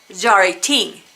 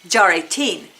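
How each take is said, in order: The two takes are said the same way.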